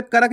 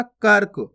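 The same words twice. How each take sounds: First: कर्क split as "ka-rak"; wrong full "ra". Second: कर्क as one syllable, "kark"; half "r" in कर्क. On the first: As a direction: say कर्क with a vowel after r, "karak". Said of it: "नहीं पढ़ना". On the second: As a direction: join r straight to k in कर्क. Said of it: "कर्क नहीं पढ़ना". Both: Shown as a demonstration.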